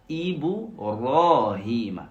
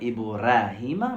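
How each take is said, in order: First: The r is said emphatic and heavy. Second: The r is said plain and light. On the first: The speaker calls it right. "mais plutôt Ibrahim" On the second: The speaker calls it wrong. "je ne devais pas dire Ibrahim"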